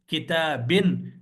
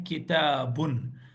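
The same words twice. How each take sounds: First: किताबिन said slowly, ending in -in; wrong ending shown. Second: किताबुन said slowly with a final -un, two pesh; correct ending shown. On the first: Teacher warning the class off this ending, slow demo. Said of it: "ये नहीं पढ़ना है". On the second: Teacher giving students the correct ending, slow demo. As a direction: give the right ending किताबुन clearly. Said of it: "आपको पढ़ना है किताबुन". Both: Shown as a demonstration.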